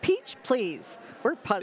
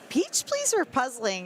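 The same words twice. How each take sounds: First: The word please gets strong extra force. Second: The word please gets no extra force. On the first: The speaker calls it right. "you got to put a lot of oomph on the please" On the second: The speaker calls it wrong. "we've been pronouncing it wrong"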